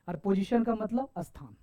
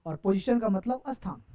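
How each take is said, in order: Both takes have the same delivery.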